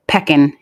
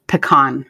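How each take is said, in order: First: PECAN as PECK-in, stress up front; mispronounced pecan. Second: PECAN as puh-KAHN, stress at the end; correct pecan. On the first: Confessing an old mistake to co-hosts, mispronounced pecan. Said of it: "I said the word pecan instead of". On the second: Telling co-hosts the proper word, correct pecan. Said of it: "instead of pecan". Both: Shown as a demonstration.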